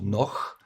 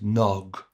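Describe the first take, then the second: First: The word ends in a ch sound. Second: The word ends in a full g sound. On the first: The speaker calls it wrong. "So not noch" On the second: The speaker calls it right. "It has this fat G like in dog"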